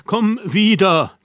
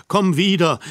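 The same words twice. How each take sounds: First: Higher, slower, drawn-out "wieder" as a final plea; imploring repeat. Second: Pleading. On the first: Harry begging her to come back, most urgent plea. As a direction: stretch out "komm wieder" in begging. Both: A narrator's reading. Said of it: "rief ich flehend".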